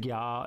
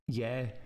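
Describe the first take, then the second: First: It is said in a posh, German-like Edinburgh Uni way. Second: It is said in a plain, local Scottish way.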